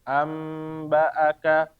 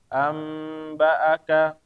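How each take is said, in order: No difference in how they are said.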